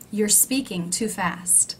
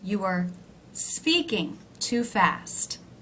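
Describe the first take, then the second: First: You are is shortened into one syllable. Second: You are is said as two full words.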